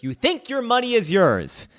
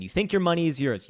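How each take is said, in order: First: "think" hit much higher and louder; bitter emphasis on "think", higher and louder; emphatic repeat. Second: Said in the usual way. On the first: Acted. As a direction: punch "think" hard on the repeat.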